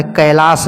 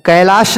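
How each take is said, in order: First: कैलाश ending in s, "kailaas"; corrected name. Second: कैलाश ending in sh, "kailaash"; mispronounced कैलाश. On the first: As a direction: close कैलाश on a plain s. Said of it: "है पर्वत". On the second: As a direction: close कैलाश on sh. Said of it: "नहीं होता है". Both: Shown as a demonstration.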